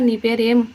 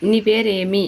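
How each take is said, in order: First: ఏం closed on a bare m; consonant ending. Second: పేరేమి ending in a full "i"; vowel ending. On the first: Teacher showing a consonant ending, ఏం stopped on m. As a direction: shut the lips on ఏం, no vowel after. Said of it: "మాతో end అవుతుంది". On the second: Teacher showing a vowel ending, పేరేమి ending in i. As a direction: finish పేరేమి on "mi". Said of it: "మీ అన్నప్పుడు ఈతో end". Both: Shown as a demonstration.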